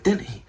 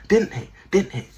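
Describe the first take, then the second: First: Said in the usual way. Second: Pitched up. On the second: Shown as a demonstration.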